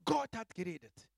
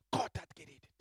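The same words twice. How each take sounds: First: Loud proclamation. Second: Breathy awed whisper, no voice; hushed whisper. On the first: Preacher to congregation, proclaiming it loudly. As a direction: declare it out loud. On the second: Preacher to congregation, whispering God's word. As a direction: whisper it like a holy secret. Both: Acted. Whispered then repeated aloud.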